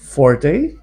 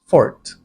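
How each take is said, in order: First: The word is said with two syllables. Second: The word is said with one syllable. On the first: The speaker calls it wrong. "forte is common and accepted" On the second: The speaker calls it right. "the technically correct way to pronounce this word is fort"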